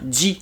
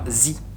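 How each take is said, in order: First: The syllable starts with a 'j' sound. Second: The syllable starts with a 'z' sound. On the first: The speaker calls it right. "On dit bien ji" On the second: The speaker calls it wrong. "et non pas zi"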